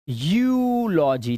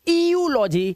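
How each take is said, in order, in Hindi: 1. शब्द की शुरुआत साधारण 'yoo' ध्वनि से होती है। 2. शब्द की शुरुआत 'ee-yoo' ध्वनि से होती है। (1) "ईयू को यू, सिर्फ यू" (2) "इसे ईयूलॉजी या यूरोप नहीं पढ़ना है"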